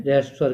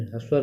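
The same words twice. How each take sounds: First: रहस्व said as ra-has-v, a vowel between r and h; रहस्व spoken as ra-has-v, not as a hr cluster; rahasv pronunciation. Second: ह्रस्व said with a tight hr cluster, no vowel after r; ह्रस्व with h and r run straight together; hrasv pronunciation to avoid. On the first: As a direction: teach रहस्व स्वर with the r and h split by a vowel. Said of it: "ह्रस्व स्वर नहीं कहते हैं". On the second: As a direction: show ह्रस्व स्वर as the hr cluster learners should not use. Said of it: "नहीं कहते हैं". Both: Shown as a demonstration.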